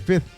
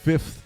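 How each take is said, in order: First: The second f sound is left out. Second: The second f sound is clearly pronounced. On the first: "they don't pronounce the F in fifth ... like F I T H" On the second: "and Rudy says fifth"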